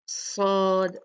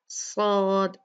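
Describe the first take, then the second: Both takes have the same delivery.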